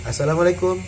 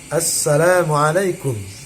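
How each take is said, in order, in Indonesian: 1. Konsonan setelah vokal pertama itu tunggal. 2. Konsonan setelah vokal pertama itu rangkap. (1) "kalau tidak dibaca sidahnya" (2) "baca salamnya sesuai dengan kaidah tajwid"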